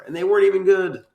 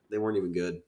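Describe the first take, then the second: First: High, loud exclamation of disappointment; exasperated outburst. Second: Said in the usual way. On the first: Real, not acted. Co-host griping about the monster fights, exasperated. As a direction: blurt it out, pitched way up. Exasperated complaint, then resigned repeat.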